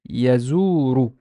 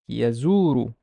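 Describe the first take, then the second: First: The word ends with a short u vowel. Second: The same.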